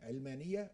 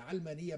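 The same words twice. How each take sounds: First: The first vowel is i, as in ilm. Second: The first vowel is a, as in aalam. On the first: The word comes from the word for science. "من العلم" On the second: The word comes from the word for world. "من العالم"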